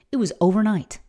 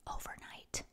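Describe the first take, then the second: First: Said in the usual way. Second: Breathy whisper of Overnight, soft and drawn out; a hushed echo of Overnight. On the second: Shown as a demonstration. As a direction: whisper Overnight back to yourself.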